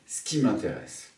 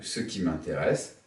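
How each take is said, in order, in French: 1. Le E de 'ce' tombe. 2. Le E de 'ce' est prononcé.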